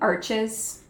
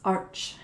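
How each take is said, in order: First: It is said the English way, with the final S. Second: It is said the French way, without the final S. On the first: This form suits English search and translation software. The speaker calls it wrong. "I'm saying arches" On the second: This is how the French name is really pronounced. The speaker calls it right. "You don't pronounce the R or the, the S"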